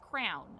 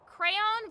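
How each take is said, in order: First: The word sounds like crown. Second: The word does not sound like crown. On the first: "I'm going to mix it up with like an actual crown" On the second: "I say crayon"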